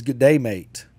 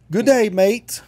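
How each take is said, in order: First: Put-on Australian accent. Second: Put-on high, loud kids' Aussie greeting; kids' Australian accent. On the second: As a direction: mimic kids calling out in an Australian accent. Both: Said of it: "and they all do the voice".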